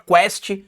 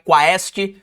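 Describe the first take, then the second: First: It is said as one syllable, like 'quest'. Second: It is said with an 'a' before the 'e'. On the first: The speaker calls it wrong. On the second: The speaker calls it right.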